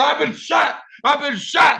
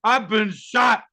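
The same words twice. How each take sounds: First: High, strained cry of a man just shot; high, stumbling shout of the wounded man; panicked wounded man. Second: Wounded man pleading. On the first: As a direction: cry out in a panic that you're hit. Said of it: "crackhead started stumbling, talking about". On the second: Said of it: "looked me in the eye, and said". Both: Retold or imitated.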